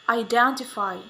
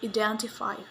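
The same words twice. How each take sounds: First: The first vowel is the diphthong 'eye'. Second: The first vowel is a plain 'e' sound. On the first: The speaker calls it right. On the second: The speaker calls it wrong.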